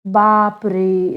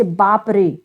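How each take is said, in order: First: Slow बाप रे with the रे vowel held very long; long drawn-out call. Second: Said in the usual way. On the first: Shown as a demonstration. Teacher showing children a triple-length vowel, drawn out. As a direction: stretch the रे of बाप रे like calling out, slowly. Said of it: "रे कहने में जब हम प्रयोग करते हैं तो आवाज बहुत देर तक निकलती है". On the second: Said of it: "आवाज बहुत देर तक निकलती है".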